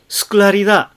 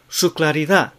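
First: The u vowel in su is dropped. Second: The u vowel in su is clearly voiced. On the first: The speaker calls it wrong. "su claridad となってしまうといけませんね" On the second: The speaker calls it right. "ウという声がちゃんと出るようにしましょう"

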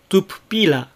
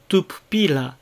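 First: The vowel in the first pu is devoiced. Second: The vowel in the first pu is devoiced.

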